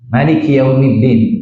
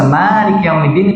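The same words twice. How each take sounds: First: The first vowel of Maliki is kept short. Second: The first vowel of Maliki is drawn out long. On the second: "dipanjang, dipanjangkan"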